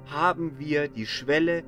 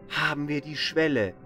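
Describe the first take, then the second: No difference in how they are said.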